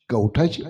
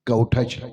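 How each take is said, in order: First: कवठाची asked back with a rising tune; puzzled echo. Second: Said in the usual way. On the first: A narrator's reading. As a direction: echo कवठाची as a baffled question. Echoing the unknown word back. (कवठाची प्रश्नार्थक, वर जाणाऱ्या सुरात)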